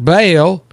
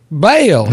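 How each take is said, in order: First: The word has a plain long 'a' vowel. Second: The word is drawled in a Southern accent. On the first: The word is the misheard name, like a hay bale. The speaker calls it wrong. "not Bale" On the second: The word is meant as 'bell', like a doorbell. The speaker calls it right. "you know, ding dong, ding dong"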